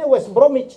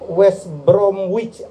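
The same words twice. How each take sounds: First: The W in Bromwich is silent. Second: The W in Bromwich is pronounced. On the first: The speaker calls it right. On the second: The speaker calls it wrong.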